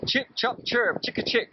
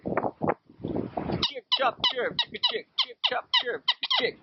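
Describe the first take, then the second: First: Said in the usual way. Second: High piping whistle chirps; bird-like whistled chirping; whistled through the wacky whistle. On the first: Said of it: "I start by saying the simple sounds". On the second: Shown as a demonstration. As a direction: blow the syllables through the whistle as shrill chirps. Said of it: "That's the easiest sound everybody can make".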